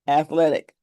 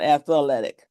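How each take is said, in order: First: It is said with three syllables. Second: It is said with an extra fourth syllable. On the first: The speaker calls it right. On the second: The speaker calls it wrong.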